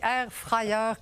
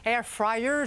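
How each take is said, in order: First: It is said with a regional Quebec accent. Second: It is said without the regional Quebec accent. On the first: "comme une bonne fille du lac" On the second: "je ne dis pas air fryer"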